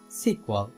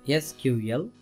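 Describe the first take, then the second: First: It is said as a single word. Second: Each letter is said separately. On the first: "pronounce it using the word" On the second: "speaking each letter individually"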